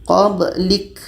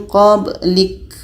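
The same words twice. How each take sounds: Both takes have the same delivery.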